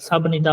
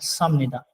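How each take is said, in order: First: It has a B sound before 'nida'. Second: It has an M sound before 'nida'. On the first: The speaker calls it wrong. "सब निदा होगा गलत" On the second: The speaker calls it right. "इसको जो है वो हमने पढ़ना है समनिदा"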